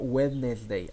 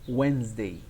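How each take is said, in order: First: Every written consonant in the middle is pronounced. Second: One written consonant in the middle is silent. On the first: The speaker calls it wrong. "It's not Wednesday" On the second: The speaker calls it right. "You can uh, omit this word. Do not say this word"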